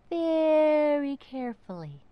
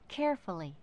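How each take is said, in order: First: Slow, carefully whispered; a loud secretive whisper; stage whisper. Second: Said in the usual way. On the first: A narrator's reading.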